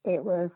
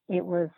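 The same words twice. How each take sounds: The two takes are said the same way.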